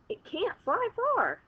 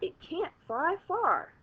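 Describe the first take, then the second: First: It is said in an excited, lively tone. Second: It is said in a calm, plain tone.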